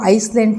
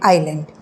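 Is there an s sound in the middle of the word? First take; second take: yes; no. First: An s sound is heard before the l. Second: No s sound is heard before the l. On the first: The speaker calls it wrong. "हम उसको आइसलैंड नहीं बोलते" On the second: The speaker calls it right. "एस वहाँ पे silent है हम उसे बोलते हैं आइलैंड"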